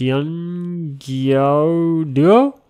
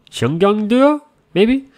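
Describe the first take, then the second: First: Xiangyao Duo said slowly and carefully, a high rising try; slow foreign try at Xiangyao Duo; foreigner speaking mandarin. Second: Xiangyang Duo tried again, pitched higher and unsure; second higher try at Xiangyang Duo, rising; foreigner speaking mandarin. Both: Shown as a demonstration. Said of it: "my Chinese is not very good".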